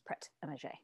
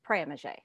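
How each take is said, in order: First: The t at the end of prêt is pronounced. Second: The t at the end of prêt is silent. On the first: This is how locals commonly say it. "everybody there says" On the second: This follows the rule learned in French class. "if there was a consonant, as we know it, at the end of a word, it's silent"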